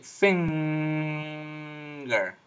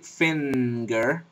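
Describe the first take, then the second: First: The nasal is made with the tongue back. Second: The nasal is made with the tongue tip. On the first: The speaker calls it right. "You're going to say finger with a velar nasal" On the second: The speaker calls it wrong. "you don't say finger with an alveolar nasal"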